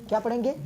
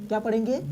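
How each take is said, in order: The two takes are said the same way.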